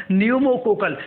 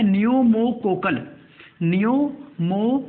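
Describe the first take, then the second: First: Said in the usual way. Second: "pneumococcal" slowly, broken into parts; slow dictation. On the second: Shown as a demonstration. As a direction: spell out "pneumococcal" by sound, part by part for note-takers. Dictating vaccine name for note-taking.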